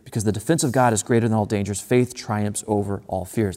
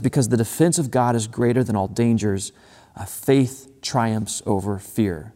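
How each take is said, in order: First: First half rushed, "faith" slowed and stressed; quick then slow repeat. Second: "faith" stressed, slowed right down; a weighty reading; slow emphatic quote. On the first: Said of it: "I think this line is so good". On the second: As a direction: linger on "faith triumphs over fear". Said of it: "he says this line, and I, I think this line is so good". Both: Shown as a demonstration.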